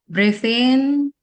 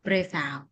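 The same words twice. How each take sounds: First: Loud "breathe in" rising on "in"; swelling, raised "in" for the inhale; inhale cue. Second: Quiet "Breathe out" with falling tune; "out" dropping away for the exhale; exhale cue. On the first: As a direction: stretch "in" upward and louder. Cueing the group's inhale. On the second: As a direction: let "out" sink softly. Cueing the group's exhale. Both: Shown as a demonstration.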